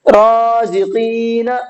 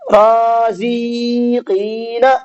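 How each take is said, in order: First: No extra syllable is lengthened. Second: The second syllable is lengthened too. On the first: The speaker calls it right. "सही है" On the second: The speaker calls it wrong. "ये गलत हो गया, यहाँ पर जा खिंच गया"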